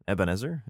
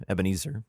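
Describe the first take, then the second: First: Ebenezer with a short eh in the middle, asked with a rise; unsure try at the name. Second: Ebenezer with a long ee in the middle, eb-uh-NEE-zer; settled pronunciation. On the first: Sounding out Ebenezer for viewers: eb-uh-NEH-zer, rising. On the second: Sounding out Ebenezer for viewers: eb-uh-NEE-zer, settled. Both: Shown as a demonstration.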